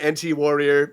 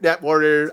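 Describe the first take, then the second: First: NT is spelled out as two letters. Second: NT is said as the single word net. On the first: This is probably the official name. "It's probably officially N T" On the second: This is how the speaker habitually says it. "I always want to pronounce it Net"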